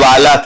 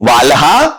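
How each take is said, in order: First: The l is said without a breathy h. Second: The l is followed by a breathy h. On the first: This is the later form. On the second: This is the older form.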